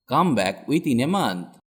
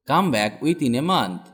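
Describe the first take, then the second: No difference in how they are said.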